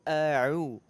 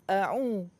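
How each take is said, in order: First: The ain sound comes from the mid-throat. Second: The ain sound comes out through the nose. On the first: The speaker calls it right. "tapi a'u" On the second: The speaker calls it wrong. "kalau suara keluar dari hidung, itu makhrajnya nggak tepat. Bukan a'u"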